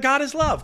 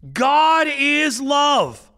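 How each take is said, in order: First: It is said casually and dismissively. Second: It is said with weight and emphasis.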